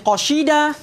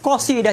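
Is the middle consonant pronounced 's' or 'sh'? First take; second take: sh; s. First: The middle consonant is an sh sound. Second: The middle consonant is a plain s sound. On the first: The speaker calls it wrong. "jadi apa namanya? Shin" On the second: The speaker calls it right. "huruf S"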